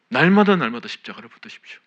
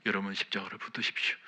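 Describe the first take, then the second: First: "날마다, 날마다" punched and much louder; repeated "날마다" hammered home loudly; loud exhortation. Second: Said in the usual way. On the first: Shown as a demonstration. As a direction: cry out "십자가를 붙드십시오" to the back row.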